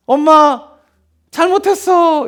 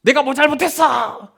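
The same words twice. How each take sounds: First: High-pitched pleading child imitation; apologising child. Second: Drawn-out mock protest; defiant child. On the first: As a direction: mimic a child begging mom's forgiveness. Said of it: "처음에는 그러다가도 어떻게 합니까?". (엄마에게 잘못을 비는 아이 흉내) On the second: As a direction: imitate a child stubbornly holding out. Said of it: "이렇게 버티는 애들은". (버티며 대드는 아이 흉내)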